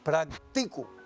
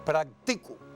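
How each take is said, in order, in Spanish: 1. La sílaba acentuada es la penúltima. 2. La sílaba acentuada es la penúltima.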